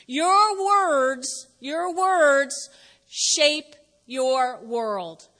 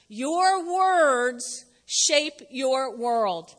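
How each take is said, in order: First: Very slow, weighty delivery; slow emphatic. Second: Very slow, word by word; slower still. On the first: Pastor dictating the big idea, very slow and weighty. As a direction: hammer each word for note-taking. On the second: Pastor repeating the big idea, even slower. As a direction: let each word land alone. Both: Shown as a demonstration. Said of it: "Write it down".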